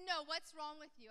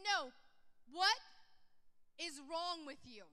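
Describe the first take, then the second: First: Said in the usual way. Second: Slow, WHAT set apart by heavy pauses; forceful WHAT, then a slow, deliberate "is wrong with you"; strong insistence. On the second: Retold or imitated. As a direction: press him firmly, landing each word of "what is wrong". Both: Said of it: "he said it so strong".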